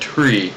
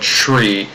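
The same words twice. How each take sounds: First: The word begins with a clear t sound. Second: The word begins with a ch sound. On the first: The speaker calls it right. "It's T, tree" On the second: The speaker calls it wrong. "not a tree, not C H"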